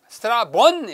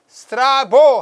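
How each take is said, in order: First: The name ends with a final n sound. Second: The name ends in a vowel with no n. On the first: This is the original form of the name. The speaker calls it right. "n 붙어야 돼요" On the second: This is the English-style form of the name. The speaker calls it wrong. "스트라보 하는데요"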